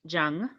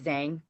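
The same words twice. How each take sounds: First: The name is said with a Mandarin pronunciation. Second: The name is said with an American pronunciation. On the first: This is the original form of the name. "is the uh, Mandarin pronunciation" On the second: This form is much more widely known. "the Americanized is"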